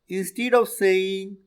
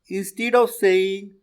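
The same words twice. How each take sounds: The two takes are said the same way.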